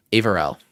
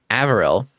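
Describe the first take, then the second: First: "Averell" like Avery with an L; settled "Averell", AY-ver-el, falling at the end; corrected name. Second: "Averill" with a short A as in "have"; tentative "Averill", AV-er-il, rising at the end; first guess at name. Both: Shown as a demonstration. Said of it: "Avery, but with an L".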